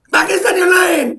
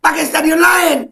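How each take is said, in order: First: Even higher strained shout; ranting, shouting the demand again; angry shout. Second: High, slow furious shout; ranting, shouting the demand; angry shout. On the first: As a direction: yell it harder the second time. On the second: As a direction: shout it, fed up. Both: Real, not acted. Repeated shout.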